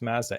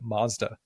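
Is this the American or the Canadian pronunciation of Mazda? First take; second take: Canadian; American. First: It is said with the Canadian vowel sound. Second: It is said with the American vowel sound. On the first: "In Canada, it's pronounced Mazda" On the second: "but in the States, everyone calls it Mazda"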